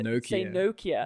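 It is said in an American accent. "all the Americans say Nokia"

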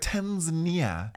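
It is said the American way. The speaker calls it wrong. "because America's like Tanzania"

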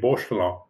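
The name is pronounced the French way. "because I live in France, so my reaction when I see that name is to say Beauchelin"

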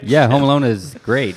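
It is said with conviction and enthusiasm.

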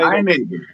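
It is said in a goofy, mocking way.

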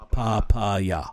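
The word is said with a Japanese pronunciation. "the way a Japanese person would read"

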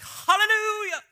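It is said with soulful expression.

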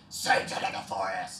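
It is made with the chest.

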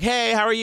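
It sounds eager and needy.

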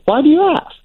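It sounds pleased and genuinely curious.

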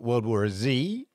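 The letter Z is said as zee.

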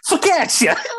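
It is shouted angrily in a New York accent.

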